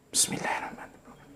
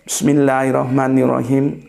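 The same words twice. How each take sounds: First: It is recited quietly under the breath. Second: It is recited aloud in a clear voice.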